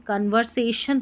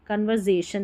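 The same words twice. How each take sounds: First: "कन्वर्सेशन" with an s, con-ver-say-shun; correct pronunciation. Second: "कन्वर्सेशन" with z for s, con-ver-zay-shun; wrong pronunciation. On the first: Teacher gives the rule's result, "कन्वर्सेशन" with s. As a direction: keep s voiceless in "कन्वर्सेशन". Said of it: "एस को स पढ़ेंगे". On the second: Teacher warns against it, "कन्वर्सेशन" with a z. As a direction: put a z in "कन्वर्सेशन". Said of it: "कन्वर्सेशन नहीं पढ़ेंगे". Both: Shown as a demonstration.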